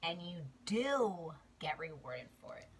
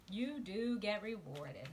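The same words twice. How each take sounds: First: Hushed whispered promise. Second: Slow, firm, stressed "do"; voiced, emphatic assurance; slow emphasis. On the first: Repeated affirmation, whispered. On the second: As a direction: lean hard on "do" slowly. Repeated affirmation, slow. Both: Real, not acted.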